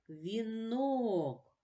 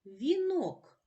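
First: "Вінок" with the final О drawn out long; stress on the О. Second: Said in the usual way. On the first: Shown as a demonstration. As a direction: lean into and stretch the О of "Вінок". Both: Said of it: "Поставимо наголос".

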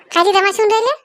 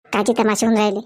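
First: Higher, louder indignant question. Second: Much lower voice repeating it; low second voice. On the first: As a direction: throw the question back. (चिडून उंच आवाजात प्रश्न) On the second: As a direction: echo it in a lower voice. (खालच्या आवाजात तोच प्रश्न) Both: Acted. Different character echoes the question.

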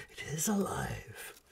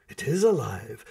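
First: It is alive breathed out as a proud, unvoiced whisper. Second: Said in the usual way. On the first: A narrator's reading. Baron shows off his living machine, proud whisper. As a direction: hush it with pride, is leaned on then falling away. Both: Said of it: "Baron Callan whispered proudly".

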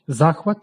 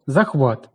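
First: Захват as за́хват, first syllable hit; meaning "delight", so stress the start; наголос на першому складі. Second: Захват as захва́т, last syllable hit; meaning "a grip", so stress the end; наголос на останньому складі. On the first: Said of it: "велике внутрішнє збудження". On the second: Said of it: "пристрій". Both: Shown as a demonstration.

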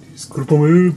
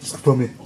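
First: A louder, earnest "Discúlpame"; louder apology. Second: Said in the usual way. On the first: Real, not acted. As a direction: say "Discúlpame" louder, with a rising end. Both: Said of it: "Nunca aprendo español".

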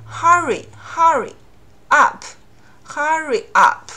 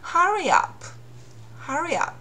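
First: Stiff, unlinked demo; choppy unlinked. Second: Linking r demo; linked with r. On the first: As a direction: hurry and up said apart, stiff and broken. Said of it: "这样读的话有点生硬". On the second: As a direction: hurry up joined by an r sound: hurry-r-up. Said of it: "中间给它加第三个音". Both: Shown as a demonstration.

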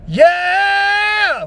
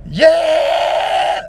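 First: High loud strained yeah; strained gravel scream. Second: High loud fry scream on yeah. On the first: Showing the bad scream, high strained gravel yeah. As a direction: push the yeah hard until it strains. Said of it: "as opposed to trying to go". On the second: Showing how the fry scream sounds, high loud yeah. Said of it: "you can hear how there was still kind of that fry there". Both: Shown as a demonstration.

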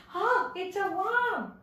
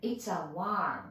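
First: High, drawn-out gasp of discovery at a worm; hammed-up surprised exclamation; mock startled. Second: Slow, spaced "It's a worm" with a long vowel in worm; worm pronunciation demo. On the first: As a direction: play-act alarm at spotting a worm, slowly. Acts out spotting a worm. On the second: Shown as a demonstration. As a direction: model worm slowly for learners. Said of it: "ワームなんですね".

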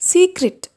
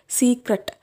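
First: സീക്രട്ട് said see-krit, higher and louder; correct pronunciation. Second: സീക്രട്ട് said see-cret with a flat ending; wrong old pronunciation. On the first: Teacher presenting the right സീക്രട്ട് to learners. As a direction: model സീക്രട്ട് as see-krit, pushed up high. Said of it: "ഇതിൻ്റെ ശരിയായ pronunciation". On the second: Teacher showing the learners' old see-cret. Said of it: "ഞാൻ ഈ word സീക്രട്ട് എന്നായിരുന്നു പറയൽ". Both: Shown as a demonstration.

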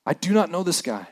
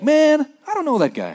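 First: Said in the usual way. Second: High, offhand slangy brush-off; modern casual denial. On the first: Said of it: "But he's like". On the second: Retold or imitated. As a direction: toss it off like a modern guy. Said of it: "today we'd be like".

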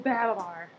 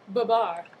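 First: Said in the usual way. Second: Babar said the French way, stress on the last syllable; French pronunciation. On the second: Shown as a demonstration. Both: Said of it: "Or as the French say".

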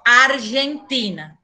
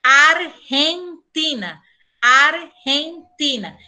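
First: Argentina with a voiced zh-like y for the g; wrong Spanish pronunciation. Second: Argentina said slowly with a throaty h for the g; drawn-out arhentina, rasp on the g; correct Spanish pronunciation. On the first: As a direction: Argentina the Portuguese way, the mistake. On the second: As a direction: Argentina with the Spanish jota sound, deliberately slow. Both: Shown as a demonstration. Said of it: "e não Argentina".

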